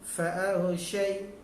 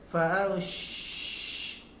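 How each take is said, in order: First: The sh sound is brief and flows straight on. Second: The sh sound is held far too long. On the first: The speaker calls it right. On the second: The speaker calls it wrong.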